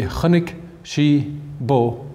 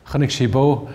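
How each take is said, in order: First: Very slow, spaced-out Irish sentence; word by word. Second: Said in the usual way. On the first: Shown as a demonstration. Teacher shows Irish word order to listeners, word by word. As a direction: say each Irish word separately, slowly.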